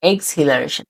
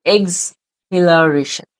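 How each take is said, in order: First: Said in the usual way. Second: Very slow "এক্সহিলারেশন", pausing after eks; stretched, broken-up "এক্সহিলারেশন" for learners; split into syllables. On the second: Shown as a demonstration. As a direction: say "এক্সহিলারেশন" drawn out as eks... hilareshan. Word in parts, then whole.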